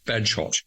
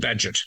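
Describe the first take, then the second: First: The name ends with a clear 'hot' syllable. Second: The name ends with a short 'it' syllable. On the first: The speaker calls it wrong. "I thought it was" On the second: The speaker calls it right. "It's actually Badgett"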